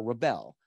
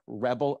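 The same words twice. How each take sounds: First: ReBEL, stressed on the second syllable as a verb; "rebel" said slowly with the weight on BEL. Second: REBel, stressed on the first syllable as a noun; "rebel" said slowly with the weight on REB. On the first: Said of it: "the verbs on the second syllable". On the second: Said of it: "nouns have the stress on the first syllable". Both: Shown as a demonstration.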